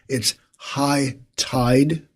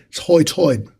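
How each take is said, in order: First: It is said in a plain modern American accent. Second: It is said in an old British-style colonial accent. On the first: "the way you or I might say" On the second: "these folks would say"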